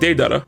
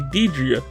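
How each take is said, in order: First: The name ends with a 'dara' sound. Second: The name ends with a 'dria' sound. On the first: This is the name as it should be said. The speaker calls it right. "what I meant to say was Deidara" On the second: This is how the speaker once thought it was pronounced. The speaker calls it wrong. "I did say Deidria"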